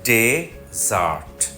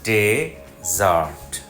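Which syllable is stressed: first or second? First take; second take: first; first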